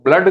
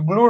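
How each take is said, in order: First: The vowel is a short 'uh' as in bud. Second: The vowel is a long 'oo' as in food. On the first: It is how people actually say it. The speaker calls it right. "लेकिन इसको ब्लड कहते हैं" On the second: It follows the spelling pattern of food. The speaker calls it wrong. "ये फूड है तो ये ब्लूड होना चाहिए"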